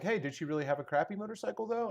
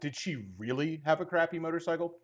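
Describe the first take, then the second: First: It sounds like a friendly, curious question. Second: It sounds like a doubtful, uncharitable question.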